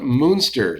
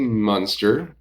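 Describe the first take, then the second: First: The first vowel sounds like the one in 'moon'. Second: The first vowel sounds like the one in 'sun'. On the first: "like the big moon" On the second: "M U N"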